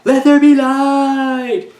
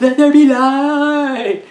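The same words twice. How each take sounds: First: Very high, loud, slow, dragged-out solemn line; milk every word like a wooden prophet; bad acting. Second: Very high, loud, slow, overdone proclamation; bad acting. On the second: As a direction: drag the line out, hammy and stiff. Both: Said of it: "He actually delivers the line like that".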